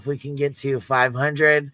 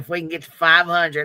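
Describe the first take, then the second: First: It is said in an ordinary, plain accent. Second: It is said in a put-on country accent.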